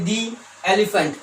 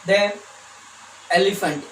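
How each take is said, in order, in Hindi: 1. शब्द 'the' को 'thee' कहा जाता है। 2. शब्द 'the' को 'thuh' कहा जाता है। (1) "यानी दी एलिफेंट" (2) "ना कि द"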